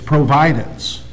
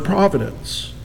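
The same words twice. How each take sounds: First: The stress is on the second syllable. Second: The stress is on the first syllable.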